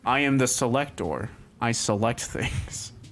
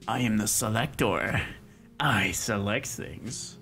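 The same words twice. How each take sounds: First: It is read in a plain, normal voice. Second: It is said in a funny put-on voice.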